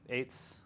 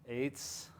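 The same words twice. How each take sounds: The two takes are said the same way.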